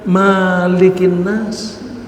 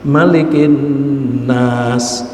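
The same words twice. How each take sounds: First: The first vowel 'ma' is long. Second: The first vowel 'ma' is short. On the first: The speaker calls it wrong. "tidak boleh dibaca" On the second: The speaker calls it right. "mahnya pendek"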